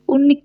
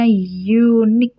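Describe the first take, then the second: First: The word begins with a plain vowel sound. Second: The word begins with a y sound. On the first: The speaker calls it wrong. "bukan unik" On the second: The speaker calls it right. "bacanya unique"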